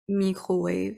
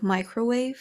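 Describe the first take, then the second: First: The word is said with a French-sounding accent. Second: The word is said with an American accent.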